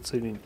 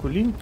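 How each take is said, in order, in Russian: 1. Название начинается со звука 'ts'. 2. Название начинается со звука 'k'. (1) "Правильно произносится Целинь" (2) "кто говорит Кулинь, говорит неправильно"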